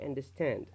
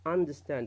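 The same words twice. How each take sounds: First: The main stress falls on the last syllable. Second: The main stress falls on the first syllable. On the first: "you read it like this" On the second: "الاسترس موجود في البداية"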